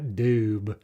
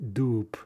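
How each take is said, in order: First: The word ends with a voiced b sound. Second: The word ends with a voiceless p sound. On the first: The speaker calls it wrong. "It's not doob" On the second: The speaker calls it right. "Ba becomes pa"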